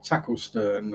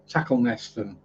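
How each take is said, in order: First: The name is said with three syllables. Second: The name is said with four syllables. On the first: This is how the name is really pronounced locally. "they aren't spelt like they're pronounced" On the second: This is how it is said by reading the spelling. "you'll have people saying"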